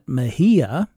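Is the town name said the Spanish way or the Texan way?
Spanish. It is said with a Spanish-style pronunciation. This is how Mexicans say the name. "Mexicans pronounce that Mejia"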